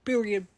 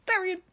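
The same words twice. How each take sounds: First: Louder, final word period. landed hard; emphatic. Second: Period. said higher and louder, punched; even more emphatic. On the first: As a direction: put a full stop on period. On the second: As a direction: slam down Period. as the last word. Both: Real, not acted.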